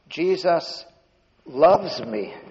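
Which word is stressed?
loves. The stress falls on the word loves. The feeling is real love, not mere knowledge. "He really loves me"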